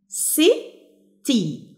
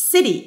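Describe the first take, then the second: First: "city" in two parts, si, pause, tee; slow "city" with a clear gap between si and tee; split into syllables. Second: Said in the usual way. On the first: Shown as a demonstration. Teacher showing two syllables, "city" syllable by syllable. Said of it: "عشان كده دي two syllables". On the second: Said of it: "نفس الكلام".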